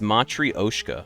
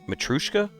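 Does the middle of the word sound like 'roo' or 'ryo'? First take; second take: ryo; roo. First: The middle syllable sounds like 'ryo'. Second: The middle syllable sounds like 'roo'. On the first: The speaker calls it right. "It's Matryoshka. Okay. Yeah, I did not know that" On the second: The speaker calls it wrong. "That's how I always remember it"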